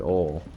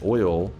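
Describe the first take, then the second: First: The word is said with a southern pronunciation. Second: The word is said with a standard pronunciation. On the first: This is how some people from the south say it. The speaker calls it wrong. "Like some people from the south say oil" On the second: This is the normal way to say it. The speaker calls it right. "But oil is how it's said"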